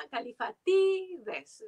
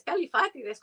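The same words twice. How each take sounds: First: "Califatides" stressed on the second-to-last syllable, ca-li-fa-TI-des; "Califatides" with the modern Greek accent on TI. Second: "Califatides" stressed on the third-to-last syllable, ca-li-FA-ti-des; "Califatides" said like Aristóteles, stress on FA; Spanish classical stress. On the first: Translator shows the modern Greek name, stress on TI. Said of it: "en griego moderno el acento va". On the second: Translator explains classical Greek names, stress on FA. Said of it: "como Aristóteles, como Eurípides". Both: Shown as a demonstration.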